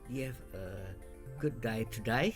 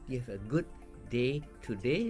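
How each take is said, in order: First: It is said in an Australian accent. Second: It is said in a non-Australian accent. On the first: "if you go to Melbourne next week, Australia, you might ask"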